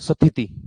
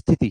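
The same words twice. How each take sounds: First: It is said in a Punjabi regional accent. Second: It is said in a standard Hindi accent. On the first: "वो क्या पढ़ते हैं" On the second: "normally अपन क्या पढ़ते हैं"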